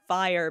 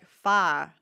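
First: The word is said with a full r-glide ending. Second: The word is reduced to a single vowel sound.

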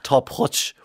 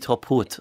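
First: The final sound is a 'ch' sound. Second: The final sound is a plain 't' sound. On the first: This is the Ulster way of saying it. "I always go for the itch sound at the end" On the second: This is the Connemara way of saying it. "If you're in Connemara"

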